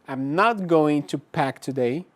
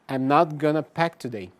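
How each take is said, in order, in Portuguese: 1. 'Going to' é dito como duas palavras completas. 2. 'Going to' é reduzido a uma palavra curta.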